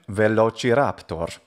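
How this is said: It is said with ecclesiastical Latin pronunciation. "If we wanted to use an ecclesiastical pronunciation"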